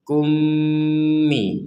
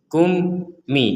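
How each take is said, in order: First: The syllables are joined without any break. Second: There is a break between the syllables. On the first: The speaker calls it right. "kita bacanya langsung kummi" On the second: The speaker calls it wrong. "kum mi itu diputus namanya, dipotong"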